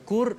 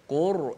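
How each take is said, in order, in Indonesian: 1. R-nya diucapkan tipis dan ringan. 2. R-nya diucapkan tebal dan berat. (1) "Kalau Qur jadi nipis" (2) "Ra tebal macam mana?"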